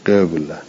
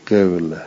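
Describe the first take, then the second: First: قوله again with the in-between vowel; ishmam repeated. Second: قوله with the qaf vowel between u and i; ishmam on qaf. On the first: Teacher repeating the ishmam example for students. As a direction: say قوله with lips slightly rounded. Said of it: "این چی؟". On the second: Teacher demonstrating ishmam on a word, vowel between u and i. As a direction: round the lips a little on the ق of قوله. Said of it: "یه جوری تلفظ بکنید که نه ضمه بشه، نه کسره". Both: Shown as a demonstration.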